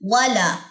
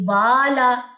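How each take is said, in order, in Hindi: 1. पहला स्वर छोटा रखा जाता है। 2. पहला स्वर लंबा खींचा जाता है। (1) "वाला अलिफ मद।" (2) "तो ये गलत है बात।"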